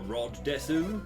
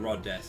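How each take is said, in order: First: The final u of desu is clearly pronounced. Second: The final u of desu is silent. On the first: The speaker calls it wrong. "he was always like" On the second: The speaker calls it right. "you don't pronounce the uh, the U in certain words"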